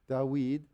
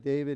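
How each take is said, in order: First: The name is said with Hebrew pronunciation. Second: The name is said with English pronunciation. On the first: The speaker calls it right. "We say David" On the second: The speaker calls it wrong. "we don't say David in Hebrew"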